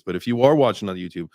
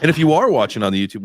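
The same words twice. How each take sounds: First: Said in the usual way. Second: ARE stressed, loud and fast. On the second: Shown as a demonstration. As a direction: punch are in if you are watching. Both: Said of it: "we gotta get better about this".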